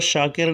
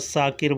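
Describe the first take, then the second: First: The name begins with a 'sh' sound. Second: The name begins with a plain 's' sound. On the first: This is the proper pronunciation. The speaker calls it right. "वो शाकिर नहीं बोलेगा" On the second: Workers who cannot say the sound say it this way. The speaker calls it wrong. "वो साकिर बोलेगा"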